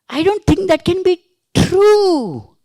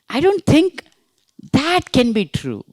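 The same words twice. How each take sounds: First: The stress falls on the word true. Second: The stress falls on the word that. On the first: The statement may be false. "It may be false" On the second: This particular thing is what is doubted. "you're talking about that particular thing"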